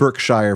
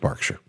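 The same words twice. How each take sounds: First: The word is pronounced the way it is spelled. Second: The word is pronounced differently from its spelling. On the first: The speaker calls it wrong. "It looks like Berkshire" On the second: The speaker calls it right. "I'm pretty sure it's Berkshire"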